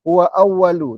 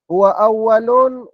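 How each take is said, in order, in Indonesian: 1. Kata terakhir berakhir dengan vokal tanpa n. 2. Kata terakhir berakhir dengan bunyi n. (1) "Awwalu katanya" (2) "awwalun ala darurah syairiyah"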